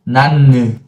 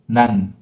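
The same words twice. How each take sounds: First: The final n is released with a vowel. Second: The final n is closed without release. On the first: The speaker calls it wrong. "But it is not 난" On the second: The speaker calls it right. "you automatically close and don't open again"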